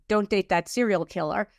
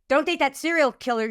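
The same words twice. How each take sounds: First: It is said in a gentle, loving tone. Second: It is said in a harsh, scolding tone. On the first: The warning comes from a caring inner voice. The speaker calls it right. "intuition might say" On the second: The warning comes from a fearful, judging inner voice. The speaker calls it wrong. "fear would say"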